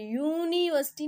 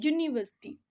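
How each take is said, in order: First: "यूनिवर्सिटी" with a long, exaggerated "yoooo"; wrong vowel onset. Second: "यूनिवर्सिटी" with a short, tight y-consonant at the start; correct consonant onset. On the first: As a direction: stretch the first "यू" of "यूनिवर्सिटी" far too long. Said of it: "यू की नहीं आ रही". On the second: Teacher showing the right sound, "यूनिवर्सिटी" with short consonant onset. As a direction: hit a quick "yu" opening "यूनिवर्सिटी". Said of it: "ज की आवाज़ आ रही है". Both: Shown as a demonstration.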